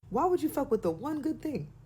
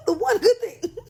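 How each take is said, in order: First: Said in the usual way. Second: High, louder, cracking up with laughter as you repeat it; laughing repeat. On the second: Real, not acted. Comedian to viewers, repeating the line while laughing hard. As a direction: burst out laughing on the echo.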